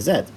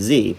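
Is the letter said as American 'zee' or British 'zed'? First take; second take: British 'zed'; American 'zee'. First: The letter is said the British way, 'zed'. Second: The letter is said the American way, 'zee'.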